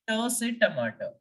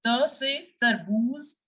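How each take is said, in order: First: "tomato" with a hard English T, tongue behind the ridge; hard "ta" sound opening "tomato". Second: "tarboos" begun with a soft French T, tongue on the teeth; soft "te" sound opening "tarboos"; soft dental T. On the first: Teacher showing the T to avoid in French, hard. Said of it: "not T say tomato". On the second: Teacher showing the French T sound, soft and dental. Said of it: "you have to make the sound of". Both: Shown as a demonstration.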